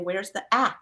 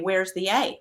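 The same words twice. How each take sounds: First: The A is said as its short sound. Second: The A is said as its letter name. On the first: The speaker calls it right. "I'll say" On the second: The speaker calls it wrong. "I don't say"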